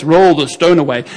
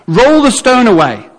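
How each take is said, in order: First: Effortless command. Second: Higher, drawn-out command; Jesus giving the command. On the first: Acted. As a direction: toss the command off without strain. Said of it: "your face would be like this". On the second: Retold or imitated. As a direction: call the order out slowly, pitched up. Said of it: "he gets to the tomb and he says".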